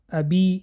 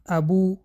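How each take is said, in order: First: The b is followed by an added i vowel. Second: The b is followed by an added u vowel. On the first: "ابی نه" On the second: "ابو، ابی نه"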